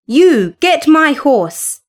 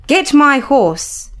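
First: Commanding. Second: Slow, imperious order to the servant lad; commanding. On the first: Cathy bossing the servant woman, imperious order. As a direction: lean on "You" to boss the woman. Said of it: "she said". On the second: Cathy ordering the lad to fetch her horse, imperious. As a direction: demand it like a spoiled mistress. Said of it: "she commanded him". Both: A narrator's reading.

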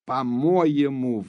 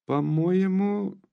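First: Slow, heavy falling fury; angry near-shout. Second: Higher, slow, rising anger; almost shouting. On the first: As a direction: bite down on "по-моему", slow and louder with a hard fall. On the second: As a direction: start the outburst, pitched up and drawn out. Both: A narrator's reading. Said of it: "вдруг закричала почти Наташа".

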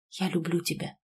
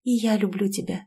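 First: Soft, hushed declaration of love; very quiet, intimate murmur; whispered confession. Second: Openly confessed love, gently voiced; understated first declaration of love; open confession. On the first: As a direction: say it low into a lover's ear. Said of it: "шепнул он мне на ушко". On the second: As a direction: admit it openly, not whispered. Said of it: "впервые призналась Владу открыто". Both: A narrator's reading.

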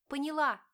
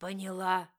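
First: High, loud, fighting back tears; tearful scream. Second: Louder, forceful repeated demand; barked demand. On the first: Wife answering husband who grips her arm, tearful cry. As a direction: cry it out in pain and fear. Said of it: "закричала Диана, глотая слёзы". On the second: Husband repeating his demand to silent wife, harsh bark. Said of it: "Стас повторил". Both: A narrator's reading.

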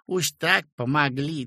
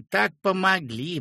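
First: Flattering thanks. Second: Так pitched higher, rising sweetly; gushing repeat. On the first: Peasant woman thanks the doctor, flattering. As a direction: gush the first так помогли. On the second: Peasant woman repeats her thanks, gushing higher. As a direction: top the first take, fawning more. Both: A narrator's reading. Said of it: "и запела льстиво".

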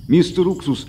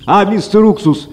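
First: Higher, soft first parrot call. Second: Parrot calling out. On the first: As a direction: call him from the tree, softly. (тихий оклик попугая) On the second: (громкий крик попугая) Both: A narrator's reading. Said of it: "попугай окликнул его".

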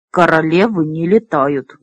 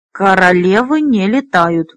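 First: Lower-pitched, categorical statement; mildly emphatic, final pronouncement. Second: Stubborn repeat, weight on «не»; firm, obstinate restatement with «не» picked out. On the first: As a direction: state it as a settled rule, pitched low. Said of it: "категорически заявил он". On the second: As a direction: insist on it, stressing «не». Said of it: "упрямо повторил Ругул". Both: A narrator's reading.

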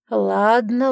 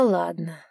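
First: Louder rising ladno, pushy; reluctant yield. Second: Conceding. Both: A narrator's reading. Giving in to her.

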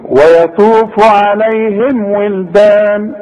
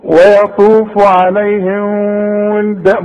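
First: عليهم ولدان slowly, lips shut on the m; slow, the m of عليهم said fully; correct izhar. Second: عليهم with a nasal, hidden m before ولدان; faulty nasalised m; wrong reading. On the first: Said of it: "لازم تقول لي". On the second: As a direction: hide the m of عليهم. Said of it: "ممكن تقول كده، لا غلط". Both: Shown as a demonstration.

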